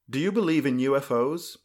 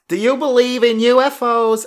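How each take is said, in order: First: It is said in the speaker's ordinary voice. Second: It is said in a put-on character accent.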